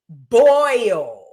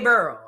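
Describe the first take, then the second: First: The vowel is a standard 'oy' sound. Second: The vowel is an 'er' sound, New Orleans style. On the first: "how to properly pronounce the word boil" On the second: "I say burl"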